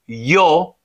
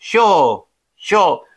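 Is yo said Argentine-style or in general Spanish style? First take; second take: general; Argentine. First: The y has a general Spanish sound. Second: The y has an Argentine-style sound. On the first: "hän ei sano jo" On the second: "hän sanoi, jo, suurin piirtein"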